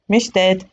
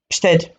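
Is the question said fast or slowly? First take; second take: slowly; fast. First: It is said slower and more relaxed. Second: It is said very fast and tense.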